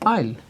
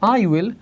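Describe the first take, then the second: First: The two words are joined into one syllable. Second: Two separate words are said in full.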